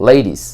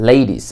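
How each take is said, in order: The two takes are said the same way.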